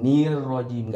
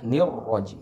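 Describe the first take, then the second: First: The vowel after n is stretched into a long ee. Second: The short vowel after n goes straight to r. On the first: The speaker calls it wrong. "Jangan seperti itu ya membacanya" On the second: The speaker calls it right. "Itu langsung kepada huruf ro"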